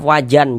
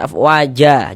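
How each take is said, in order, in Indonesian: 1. Kata ini berakhir dengan bunyi n. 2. Kata ini berakhir dengan huruf vokal a panjang. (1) "jangan afwajan" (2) "dibaca dengan panjang dua harokat"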